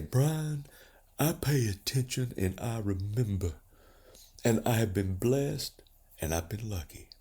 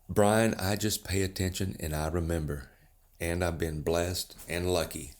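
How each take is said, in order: First: It is said imitating Lloyd Wells's voice. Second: It is said in the speaker's own voice.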